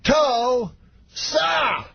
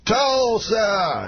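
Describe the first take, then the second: First: Very high, syllables pulled far apart; Bill Cosby, even slower. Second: High, sustained stage call; Bill Cosby. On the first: Star milking the crowd's cheers, exaggeratedly slow high impression. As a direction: drag out TUL and SA with a gap between. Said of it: "every time slower". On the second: Star calling the town's name to the audience, high impression. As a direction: ring it out high to a crowd, imitating the star. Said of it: "walks out, and he goes". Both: Retold or imitated.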